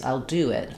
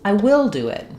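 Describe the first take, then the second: First: Will is contracted and do carries the stress. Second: The word will is said in full and stressed. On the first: A plain agreement to do the task. "Do is the important word in this phrase" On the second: The speaker insists against a claim that they won't. "where we're stressing on will"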